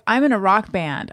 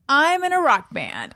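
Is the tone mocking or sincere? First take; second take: sincere; mocking. First: It is said in a sincere tone. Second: It is said in a mocking tone.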